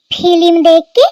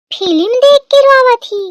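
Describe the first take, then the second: First: "film देख के" loud, rising at the end; incredulous question. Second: "film देख के रोवा थी" high, falling at the end; incredulous exclamation. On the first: Mother-in-law questions bride's excuse, incredulous rising "film देख के". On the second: Mother-in-law scoffs at bride's tears, high falling "film देख के रोवा थी". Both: Acted.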